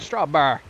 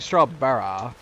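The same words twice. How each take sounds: First: The last syllable is left off. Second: All three syllables are pronounced. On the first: "I'm just leaving the last syllable completely off" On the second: "I'm not saying strawberry"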